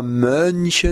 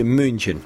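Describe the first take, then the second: First: München said with a plain u instead of ü; mispronounced München, u vowel; wrong vowel. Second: München with a rounded German ü; München, careful German umlaut; correct ü. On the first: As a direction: say München with an oo sound, slowly. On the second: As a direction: say München with a proper front ü. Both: Shown as a demonstration. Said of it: "mais un U".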